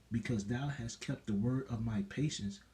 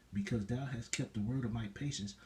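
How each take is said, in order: No difference in how they are said.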